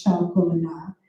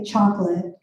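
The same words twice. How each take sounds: First: Chocolat in three even French syllables, sho-ko-la. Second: Chocolate said as two beats, CHALK-let, the middle O dropped; chocolate in stress-timed English, CHALK-let. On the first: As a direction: give each syllable of chocolat its own beat, French style. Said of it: "In French, which is syllable timed". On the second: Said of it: "we wanna hit the chalk and we wanna hit the let". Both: Shown as a demonstration.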